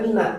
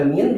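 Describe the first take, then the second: First: The word ends on an added a vowel. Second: The word ends on the n sound. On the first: A definite article follows. "Kalau depannya pakai alif lam dibacanya mina" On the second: No definite article follows. "Kalau nggak ada alif lamnya dibacanya min"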